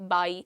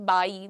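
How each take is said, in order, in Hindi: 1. इसकी शुरुआत में ऊपरी दाँत होंठ को छूते हैं। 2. इसकी शुरुआत में ऊपरी दाँत होंठ को छूते हैं।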